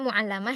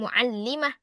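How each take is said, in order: First: The vowel after the L is a. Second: The vowel after the L is i. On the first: The speaker calls it wrong. "ini jangan dibaca muallamah ya" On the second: The speaker calls it right. "jadi bacanya muallimatun"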